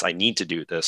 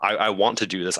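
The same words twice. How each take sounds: First: Quoting the hero's choice, now pressing need; stress on need. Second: I, I WANT to do this, with the word want leaned on; a friend quoting a hero's resolve, pressing on want; stress on want. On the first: Fan quoting the hero's resolve, weight on need. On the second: Quoting the hero's choice, weight on want. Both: Retold or imitated. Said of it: "come to that realization and say".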